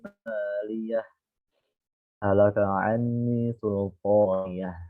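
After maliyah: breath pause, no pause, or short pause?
breath pause. It stops after maliyah to take a breath. The speaker calls it right. "Kalau wakof, antum wajib mengambil nafas"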